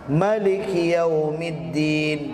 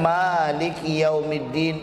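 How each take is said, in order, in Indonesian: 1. Vokal pertama dalam Maliki pendek. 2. Vokal pertama dalam Maliki panjang. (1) "jangan salahkan" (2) "itu bacaan yang masyhurnya, mimnya panjang"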